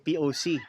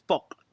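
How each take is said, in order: First: It is spelled out as separate letters. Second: It is said as a single word. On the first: The speaker calls it wrong. "a lot of people say P O C. No, common mistake yan" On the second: The speaker calls it right. "hindi siya individual letters"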